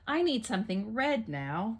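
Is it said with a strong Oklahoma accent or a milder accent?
milder. It is said with a milder, less Oklahoma accent.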